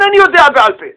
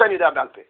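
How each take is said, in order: First: Mocking "אני יודע בעל פה" thrown out louder and higher; mock the excuse scornfully, loud and high; mocking quote. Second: Said in the usual way. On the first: (ציטוט לועג ורם של התירוץ) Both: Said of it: "ותמחקו לכם מהראש".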